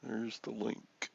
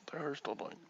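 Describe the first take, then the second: First: Said in the usual way. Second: A soft whisper of the line. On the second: Shown as a demonstration. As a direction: breathe it out without voice.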